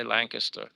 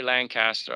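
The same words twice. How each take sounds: First: Lancaster as "LANK-uh-ster"; Lancaster with a swallowed middle; reduced second syllable. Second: Lancaster as "LAN-cass-ter"; Lancaster pronounced like Lan plus caster; full second syllable. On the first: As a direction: shrink the middle of Lancaster to a short unstressed vowel. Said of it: "I say Lancaster". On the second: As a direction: give Lancaster a clear "cast" in the middle. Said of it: "I don't say Lancaster". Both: Shown as a demonstration.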